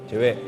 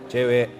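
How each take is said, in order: Both takes have the same delivery.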